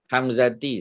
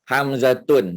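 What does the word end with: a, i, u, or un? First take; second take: i; un. First: The word ends with the sound i. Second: The word ends with the sound un. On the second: "dah salah"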